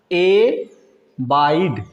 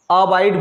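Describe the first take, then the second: First: एबाइड stretched out very slowly, e-baaid; drawn-out एबाइड for the class; एबाइड slowly sounded out; slow model word. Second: अबाइड with an open a at the start; अबाइड read with a short a; अबाइड as the other accepted reading; alternate reading. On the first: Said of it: "ये एबाइड लिखा है". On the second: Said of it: "अबाइड या एबाइड". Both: Shown as a demonstration.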